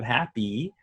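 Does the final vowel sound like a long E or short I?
long E. The final vowel is a long E sound. This is the American way of saying it. The speaker calls it wrong. "instead of happy"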